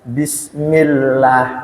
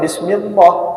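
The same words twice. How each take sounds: First: The l sound is thin and light. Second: The l sound is thick and heavy. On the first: The speaker calls it right. "Ketika diawali kasroh harus dibaca tarkik" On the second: The speaker calls it wrong. "nggak boleh"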